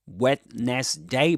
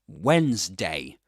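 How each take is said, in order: First: It is said with three syllables. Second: It is said with two syllables. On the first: The speaker calls it wrong. "You don't say Wednesday" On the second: The speaker calls it right. "Two syllables"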